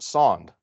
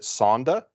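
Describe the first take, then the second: First: The word is said as 'sonde'. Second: The word is said as 'sonda'. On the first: "Some people pronounce it sonde. I'm in the sonde camp" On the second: "Some people pronounce it sonda"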